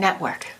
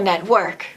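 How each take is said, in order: First: The stress is on the first syllable. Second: The stress is on the second syllable. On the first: The speaker calls it right. "we're going to do the same thing. We're going to say" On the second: The speaker calls it wrong. "And you said social network. And that sounded like a strong accent"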